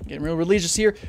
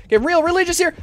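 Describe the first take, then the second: First: Said in the usual way. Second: Getting real religious here raised high; high, mock-fervent. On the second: Shown as a demonstration. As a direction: repeat it higher and louder, like a prayer.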